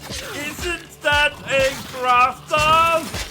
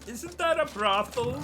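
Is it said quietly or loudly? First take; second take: loudly; quietly. First: It is said louder. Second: It is said at normal volume.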